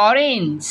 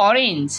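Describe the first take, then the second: Both takes have the same delivery.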